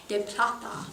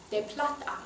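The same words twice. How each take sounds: The two takes are said the same way.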